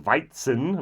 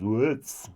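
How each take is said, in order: First: It is said in Standard German. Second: It is said in Bavarian dialect. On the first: "the German word is Weizen" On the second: "the Bavarian pronunciation is Witz"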